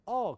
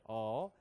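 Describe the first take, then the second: First: 어 short and higher; Korean 어. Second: Low, long 어; American-style a. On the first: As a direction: say 어 briskly the Korean way. (한국식으로 짧은 어) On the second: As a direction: stretch 어 low. (미국식으로 낮고 길게 끄는 어) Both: Shown as a demonstration. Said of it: "그런 말 없어요".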